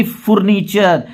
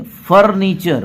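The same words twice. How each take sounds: First: Deliberate oo vowel in फर्नीचर, "FOOR-nee-char"; wrong pronunciation. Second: फर्नीचर with "uh" in the first syllable, "FUR-nee-char"; correct pronunciation. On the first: Teacher shows what not to say, फर्नीचर with wrong oo. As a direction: misread फर्नीचर as "foor-neechar", oo in the first syllable. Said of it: "ये नहीं कि". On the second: Teacher corrects the misreading for learners, फर्नीचर with "uh". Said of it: "ऐसा नहीं है". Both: Shown as a demonstration.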